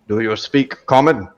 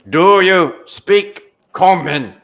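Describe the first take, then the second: First: It is said at a softer volume. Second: It is said at a louder volume. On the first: "says in a gruff voice" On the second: "he says a little bit louder"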